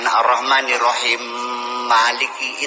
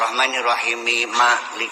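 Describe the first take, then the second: First: Rahim ends bare, and Malik takes a final i. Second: Rahim takes a linking i, and Malik ends bare. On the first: The speaker calls it wrong. "Bacanya jangan" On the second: The speaker calls it right. "Kalau wasal ya ... kan gitu"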